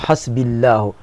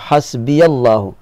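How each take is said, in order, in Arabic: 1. الياء الأخيرة لا حركة لها. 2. الياء الأخيرة متحركة بفتحة قصيرة. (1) "لو تركت الياء ساكنة ستقول حسبي الله" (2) "لو فتحت فتقول حسبي الله"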